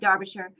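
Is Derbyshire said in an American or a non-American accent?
American. It is said in a plain American accent. It is the speaker's own ordinary way of saying it. The speaker calls it wrong. "My American accent, we're like Derbyshire"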